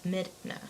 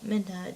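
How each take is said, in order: First: The D sound comes before the N sound. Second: The N sound comes before the D sound. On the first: The speaker calls it right. "The N is after the D, so it's Midna" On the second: The speaker calls it wrong. "Sometimes I accidentally say Minda. And it's like it's not Minda"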